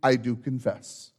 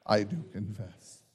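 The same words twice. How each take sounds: First: Said in the usual way. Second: Softer, lower murmured "I do confess"; quiet repeat. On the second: Shown as a demonstration. Pastor repeating the reply with the congregation, softer and lower. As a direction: let "I do confess" sink to a low murmur. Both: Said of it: "then declare by saying".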